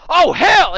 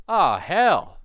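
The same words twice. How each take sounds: First: Much higher, loud shout; startled yell. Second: Mildly surprised lawman, a bit louder; a gruff sheriff caught off guard, light touch. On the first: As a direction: blurt it as you snap into action. Ranger yells before shooting. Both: Acted.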